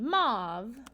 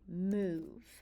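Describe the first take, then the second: First: The vowel is a short o sound. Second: The vowel is a long oo sound. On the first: The speaker calls it wrong. "change this O from short to a long vowel sound. So instead of saying mauve" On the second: The speaker calls it right. "we say move"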